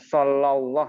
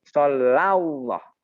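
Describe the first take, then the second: First: The 'Allah' part is shortened or lost. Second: The 'Allah' part is kept full and joined. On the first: The speaker calls it wrong. "Jangan Sallallahu ya" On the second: The speaker calls it right. "Jadi Salla Allah. Digabung menjadi Sallallahu"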